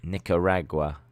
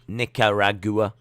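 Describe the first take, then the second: First: Nicaragua ending in one syllable, gwa; gwa pronunciation. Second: Nicaragua ending in two syllables, goo-uh; goo-a pronunciation. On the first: Streamer showing how you pronounce it, Nicaragua with a one-syllable gwa ending. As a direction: say Nicaragua lower, as nik-uh-RAG-wa. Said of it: "That's how you pronounce it". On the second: Streamer showing how they were pronouncing it, Nicaragua with a goo-uh ending. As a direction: stretch the end of Nicaragua into rag-GOO-uh. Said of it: "I was pronouncing it Gua". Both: Shown as a demonstration.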